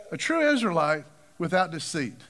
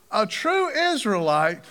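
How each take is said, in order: First: Said in the usual way. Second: "true" drawn out slowly and rising; "true" stretched with a rising tune; stress on true. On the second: Shown as a demonstration. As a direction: linger on "true", let it lift.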